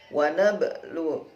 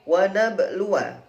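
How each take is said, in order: First: The word ends with a long u sound. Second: The word ends with a short wa syllable. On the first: The reading stops at this word. "Kalau wakof wawunya disukun sehingga lu-nya menjadi panjang" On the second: The reading continues into the next word. "Kalau wasal berarti wanya dibaca pendek"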